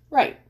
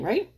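First: Right. said higher and firmer, a settled answer; self-assured Right; confident answer. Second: Right? tossed up like a question to the viewer; rising right?; questioning rise. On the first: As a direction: answer his own question with a bright Right. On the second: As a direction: ask it with a rising tune, right?. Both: Shown as a demonstration.

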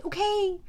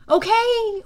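First: Said in the usual way. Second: A high, loud first okay; a raised okay that settles down on the next; loud anxious okay. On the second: Acted. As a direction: call it out to stop the panic. Hero settles panicking creatures.

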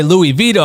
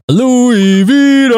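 First: Said in the usual way. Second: Long drawn-out, high, loud name call; slow, soaring announcer holler; hype announcer shout. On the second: Pretend. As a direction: belt out the guest's name like a ring announcer. Calls out guest's name as intro.

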